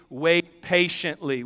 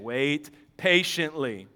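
First: Slow scripture reading. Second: "Wait patiently" lower, softer and slow, leaning on "patiently"; slow softer emphasis. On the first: Acted. Preacher reading God's answer aloud, slow and even. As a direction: read slowly: "wait patiently", words drawn out evenly. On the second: Shown as a demonstration. Preacher answering his own question, low soft slow emphasis. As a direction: drop down and drive home "Wait patiently". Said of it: "What do we do if we're waiting".

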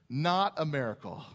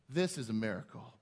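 First: "Not" hit hard, falling at the end; stress on not. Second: "This" stressed, said lower and softer. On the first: Preacher shrugging off a hockey game, stress on "Not". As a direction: lean on "Not" to deny it. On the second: Preacher turning to the gospel, low weighty "This". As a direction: point to the scripture with a weighty "This". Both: Shown as a demonstration.

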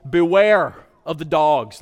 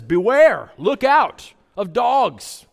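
First: "beware of the dogs" read out like a yard sign; "beware" given a firm falling stress, sign-style; posted warning, "beware of the dogs" stated flatly. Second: "Beware" barked out loud, then slow and high; a loud warning call of "Beware"; calling out "Beware" at the dogs. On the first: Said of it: "like the yard sign". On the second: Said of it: "just like the yard sign". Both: Shown as a demonstration.

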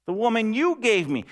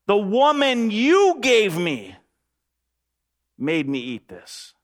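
First: Said in the usual way. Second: Slow, higher, louder protest; Adam pointing the finger, slow and raised; Adam blaming God. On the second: Acted. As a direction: drag it out like a defensive excuse. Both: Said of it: "He says to God".

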